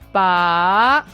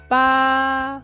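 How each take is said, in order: First: The pitch rises from low to high. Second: The pitch stays high and level. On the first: It means to pull out. "The second tone low to high" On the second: It means eight. "The first tone high and flat"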